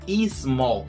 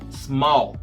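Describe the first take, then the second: First: An extra vowel sound comes before the s. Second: The word starts directly with a hissing s. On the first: The speaker calls it wrong. "Não é I small" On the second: The speaker calls it right. "é small. É um assobio antes de falar mol"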